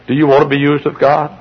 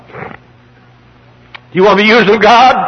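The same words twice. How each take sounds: First: Said in the usual way. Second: Slow, high, drawn-out pulpit cry; stretched, raised preaching voice; preacher's shouted challenge. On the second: Real, not acted. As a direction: throw the question out at the congregation, high and slow. Same question repeated at full force.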